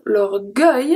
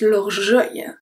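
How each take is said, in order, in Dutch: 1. De G is hard, zoals in 'go'. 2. De G is zacht, zoals in 'genre'. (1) "instead of l'orgueil" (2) "the E after turns the G into a soft G"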